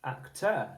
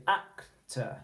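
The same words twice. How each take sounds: First: "actor" as ac-TER, stress on the last syllable; stress on second syllable. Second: "actor" as AC-tuh, going up on AC; stress on first syllable. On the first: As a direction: wrongly punch the TER of "actor". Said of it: "You wouldn't say". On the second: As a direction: lift the AC of "actor", drop to a weak uh. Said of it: "You would go up on the first syllable". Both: Shown as a demonstration.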